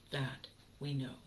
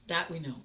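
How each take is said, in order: First: Repeated softly and lower; quiet echo of the line; softer repeat. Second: Said in the usual way. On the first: Shown as a demonstration. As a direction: drop it down, almost to yourself.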